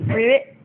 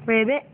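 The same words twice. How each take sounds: First: A loud, bouncy "Ribbit" with a rise at the end; loud playful frog sound for a toddler; loud ribbit demo. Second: A bouncy mock frog croak, rising at the end; playful frog sound for a toddler; ribbit demo for toddler. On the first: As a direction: belt out the frog croak to coax the toddler. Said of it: "you need to do some more ribbit". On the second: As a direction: show the kid how a frog goes. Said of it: "You gotta say ribbit". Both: Shown as a demonstration.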